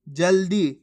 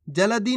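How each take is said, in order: First: जल्दी in two beats, "jal-di"; सही उच्चारण. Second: जल्दी in three beats, "ja-la-di"; गलत उच्चारण. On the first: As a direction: say जल्दी with ल joined straight to दी. (जल्दी में आधा ल, दी से जुड़ा) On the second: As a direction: misread जल्दी with a full ल. (जल्दी को "जलदी", ल पूरा बोलकर) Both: Shown as a demonstration. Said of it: "जल्दी नहीं".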